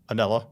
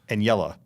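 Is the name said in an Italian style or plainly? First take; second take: plain; Italian style. First: The name is said with a plain middle sound. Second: The name is said with an Italian-style middle sound. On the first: The speaker calls it right. "how is it supposed?" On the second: The speaker calls it wrong. "It sounds good. It's wrong"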